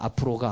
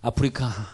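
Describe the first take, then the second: First: The word is garbled to sound like 'apeuro ga'. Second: The word is pronounced clearly as 'apeurika'.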